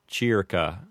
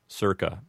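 First: It is said with classical Latin vowels. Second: It is said with Americanized vowels.

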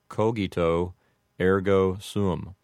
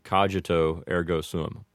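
First: The G in cogito is a hard G. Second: The G in cogito is a soft G. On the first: This follows classical Latin pronunciation. "you would make the G in cogito a hard G" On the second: This follows an Americanized pronunciation. "make the G a soft G"

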